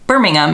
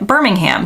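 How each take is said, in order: First: It is said with a British pronunciation. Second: It is said with an American pronunciation. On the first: This names the city in the UK. "saying Birmingham is always very strange to me" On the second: This names the city in Alabama. "Americans have a Birmingham in Alabama, and we pronounce it Birmingham"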